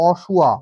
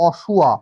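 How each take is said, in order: No difference in how they are said.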